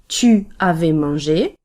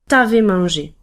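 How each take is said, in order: First: The pronoun is said in full as tu. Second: The u is dropped, giving t'avais. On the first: "that's the normal form" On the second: "it will become t'avais mangé"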